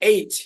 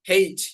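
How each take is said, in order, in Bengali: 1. এটি সরাসরি স্বরবর্ণ দিয়ে শুরু হয়, h নেই। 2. এটি একটি শোনা যায় এমন h ধ্বনি দিয়ে শুরু হয়। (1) "একটা হচ্ছে আমরা বলেছি এইচ" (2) "আরেকটা হয় হেইচ"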